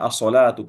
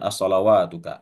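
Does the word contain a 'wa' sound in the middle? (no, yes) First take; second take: no; yes. First: The word has no 'wa' sound in the middle. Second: The word has a 'wa' sound in the middle. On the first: The speaker calls it right. "Ini dibacanya as-salatuka" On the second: The speaker calls it wrong. "bukan as-salawatuka"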